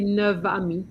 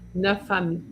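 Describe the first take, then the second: First: Neuf is linked with a V sound. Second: Neuf is linked with an F sound. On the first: The speaker calls it wrong. "you don't usually say" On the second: The speaker calls it right. "it's more the F sound you're going to hear"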